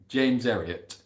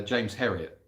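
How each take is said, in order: First: "James Herriot" in Yorkshire with the H dropped; lightly put-on Yorkshire accent, silent H. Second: Said in the usual way. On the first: Shown as a demonstration. Repeats name in Yorkshire accent.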